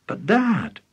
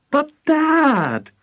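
First: Put-on high-pitched boy's tentative plea; mild, high protest; pleading. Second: Put-on loud, very high boyish cry; insistent, wailing protest; exasperated plea. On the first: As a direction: try to get Dad's attention, voice pitched up. George first tries to interrupt. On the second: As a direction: burst out with it, drawn out and high. George's interrupted plea finally bursts out.

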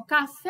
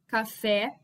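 First: Café with FÉ held long, as if calling someone; called out, final syllable stretched. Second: Said in the usual way. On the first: Shown as a demonstration. Teacher finds the stressed syllable for students, calling out café with a long FÉ. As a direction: call out café, dragging the last syllable. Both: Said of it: "como se eu estivesse chamando a pessoa".

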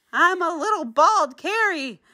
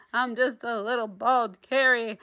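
First: High, whiny little-voice lament; self-pitying. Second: Said in the usual way. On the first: Acted. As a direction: pout over being bald. Character lost hat and glasses.

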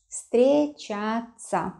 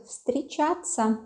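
First: Встречаться very slowly, in separate syllables; slow, careful model of встречаться. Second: Said in the usual way. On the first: Shown as a demonstration. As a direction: draw out each syllable of встречаться for learners. Teacher repeats new word slowly.

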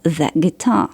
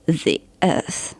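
First: "the guitar" with the said as a short "thuh" before the consonant; "the" with a short e sound before "guitar". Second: "the earth" with the said as "thee" before the vowel; "the" ending in an i sound before "earth". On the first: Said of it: "na końcu wymowy ma e". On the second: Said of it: "na końcu wymowy uzyskuje i". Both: Shown as a demonstration.

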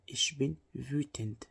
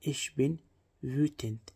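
First: Ich bin wütend said in one slow unbroken line; steady slow dictation; slow even demo. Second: Bin lifted and rising, then a pause before wütend; two-part drill stressing bin. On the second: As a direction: split it as Ich bin, pause, wütend, leaning on bin. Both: Shown as a demonstration. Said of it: "Wütend يعني غاضب".

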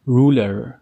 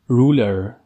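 The two takes are said the same way.

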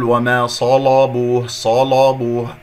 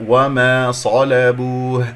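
First: وما صلبوه with l and b darkened too; wrong spread heaviness. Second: وما صلبوه slow, thick s then light l; correct heavy sad. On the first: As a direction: make the whole of صلبوه thick and rounded. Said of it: "الصاد هي المفخمة فقط". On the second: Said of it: "الصاد مفخمة". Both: Shown as a demonstration.

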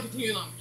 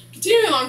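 First: Quiet echo. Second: Continue along called out high and loud, like a host moving things on. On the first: Repeating herself to viewers as a soft muttered aside. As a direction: echo continue along to yourself under your breath. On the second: Recapping the show, she loudly pushes the story forward. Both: Shown as a demonstration.

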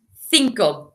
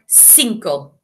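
First: "cinco" with the C as English th; th sound in cinco. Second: "cinco" with the C as an s; South American cinco. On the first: Teacher modelling Spain's pronunciation, th sound in "cinco". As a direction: say "cinco" starting like think. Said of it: "we say the C with a th sound". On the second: Teacher showing South American usage, s sound in "cinco". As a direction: say "cinco" starting with a hissed s, not th. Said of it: "if you were in South America". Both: Shown as a demonstration.

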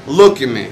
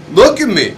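First: Said in the usual way. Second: Higher, louder order; retold confrontation, demanding and raised; sharp demand. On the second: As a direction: bark it right in his face.

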